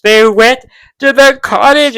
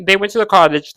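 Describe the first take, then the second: First: Higher, louder, drawn-out fangirl gushing; excited emphasis. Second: Said in the usual way. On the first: Real, not acted. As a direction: stretch it slowly and loudly in delight. Excited recap, repeated emphatically.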